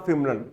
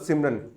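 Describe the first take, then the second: First: The name begins with an f sound. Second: The name begins with an s sound. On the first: The speaker calls it wrong. "वो सह को फह बोलता था" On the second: The speaker calls it right. "उसका नाम था सिमरन"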